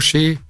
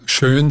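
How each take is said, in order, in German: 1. Der Vokal ist ein einfaches ungerundetes ä. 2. Der Vokal ist ein gerundetes ö. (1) "im Oberallgäu sagt sie schä" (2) "Statt schön"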